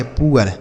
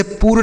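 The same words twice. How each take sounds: First: Teacher gives the right पुअर as "pu-ar"; correct pronunciation. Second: पुअर squeezed into one syllable, "pur"; the mistake students make, पुअर as "pur"; wrong pronunciation. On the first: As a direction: say पुअर properly as "pu-ar", both vowels heard. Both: Shown as a demonstration. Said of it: "इसे पुअर नहीं पढ़ेंगे".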